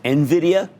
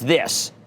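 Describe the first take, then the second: First: The name starts with 'en', then 'vid-ee-uh'. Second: The name is said to rhyme with Nivea. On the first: The speaker calls it right. "which is how you pronounce it" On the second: The speaker calls it wrong. "like it rhymes with Nivea"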